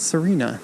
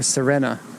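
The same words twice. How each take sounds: First: It is said the usual foreign way. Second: It is said the local way.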